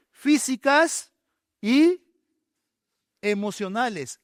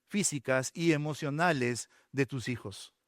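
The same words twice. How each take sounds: First: "Físicas" drawn out slowly and high, "y" loud; preacher slowly hammering "Físicas y emocionales"; stress on físicas and emocionales. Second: Said in the usual way. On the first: Shown as a demonstration. Pastor stressing to parents, slow high emphatic "Físicas y emocionales". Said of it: "slow emphatic repeat". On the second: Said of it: "first plain take".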